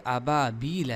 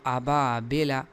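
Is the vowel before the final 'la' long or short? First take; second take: long; short. First: The vowel before the last syllable is long. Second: The vowel before the last syllable is short. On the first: The speaker calls it right. "हालांकि ये अबाबीला है" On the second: The speaker calls it wrong. "बाज़ लोग इस ला- या को गिरा देते हैं"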